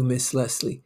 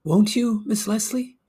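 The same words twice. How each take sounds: First: Said in the usual way. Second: Much higher, rising plea on Leslie; pleading question. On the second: Acted. Broker begging his secretary for a yes, high pleading rise. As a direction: ask high and hopeful, pleading.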